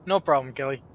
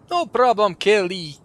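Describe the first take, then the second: First: Said in the usual way. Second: "No problem, Kelly" redone higher and louder in a Russian accent; mock Russian accent. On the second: Shown as a demonstration. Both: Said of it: "I gave him a Scottish accent".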